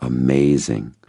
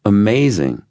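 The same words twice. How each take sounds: First: Understated, unhurried wonder. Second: High, emphatic wonder; wowed, raised pitch; amazed. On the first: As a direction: let it settle as a considered verdict. Repeats the word, sincerely reflecting. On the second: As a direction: exclaim it with a big falling swoop. Says the expected word with emphasis. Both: A narrator's reading.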